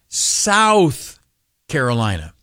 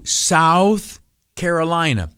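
First: It is said with strong, heavy emphasis. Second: It is said plainly, without extra emphasis.

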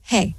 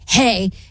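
First: It is said in a flat, monotone way. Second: It is said in an angry tone.

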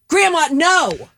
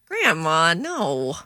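First: It is said in an angry tone. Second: It is said in a flirty tone.

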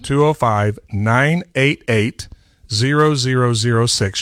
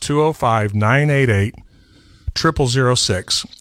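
First: The number is said slowly. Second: The number is said at normal speed.

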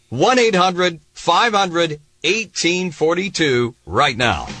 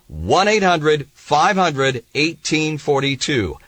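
First: The number is said slowly. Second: The number is said at normal speed.

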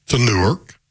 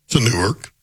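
The two takes are said the same way.

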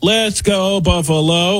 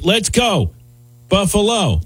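First: There is no pause after 'Let's go'. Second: There is a pause after 'Let's go'.

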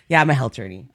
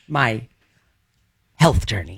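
First: It flows without a pause before journey. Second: There is a pause before the word journey.

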